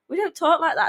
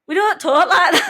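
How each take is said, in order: First: It is said in a natural Doncaster accent. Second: It is said in an exaggerated, mimicked Doncaster accent.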